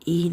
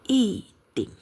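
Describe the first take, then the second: First: Yi is said with a high level tone. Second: Yi is said with a falling tone. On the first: The word stands alone. "Kalau berdiri sendiri bacanya i nada pertama" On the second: The word comes before a third-tone syllable. "Jadi berubah menjadi nada keempat"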